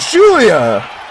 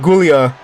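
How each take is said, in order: First: The name begins with a J sound. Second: The name begins with a hard G sound. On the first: The speaker calls it right. "Pronounce the G as a J" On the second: The speaker calls it wrong. "Stop pronouncing the G"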